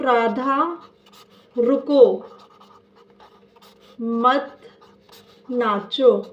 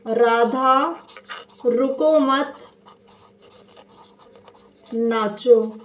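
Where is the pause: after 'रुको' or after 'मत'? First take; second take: after रुको; after मत. First: There is a pause after the word रुको. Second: There is a pause after the word मत. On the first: Radha should stop and not dance. "Radha रुक जाओ नाचना नहीं है" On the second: Radha should not stop but keep dancing. "Radha रुकना नहीं है नाचना है"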